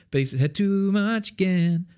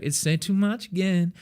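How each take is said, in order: First: "too much again" sung higher and with deliberate rhythm; the right, rhythmically precise take; intentional rhythm. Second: Said in the usual way. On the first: Shown as a demonstration. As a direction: nail the rhythm on purpose. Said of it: "is what knowing your vocal rhythm is". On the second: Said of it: "just casually doing it would be like".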